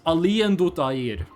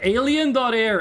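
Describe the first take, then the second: First: The name is said with a Norwegian-style pronunciation. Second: The name is said in a plain English way.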